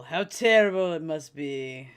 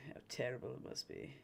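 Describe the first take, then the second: First: Loud, slow, drawn-out mock pity; mock lament. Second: Low, hushed mock pity; quiet mock lament. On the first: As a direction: lay on the pity, stretching TERRIBLE loudly. Mock lament, repeated louder. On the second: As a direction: let the pity sink away softly on TERRIBLE. Mock lament, repeated under breath.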